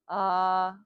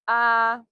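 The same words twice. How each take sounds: First: The voice is looser and more relaxed. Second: The voice is held and slightly tight. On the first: "I literally just loosened the muscles of my pelvic floor and that shift happened" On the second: "just in your regular default voice"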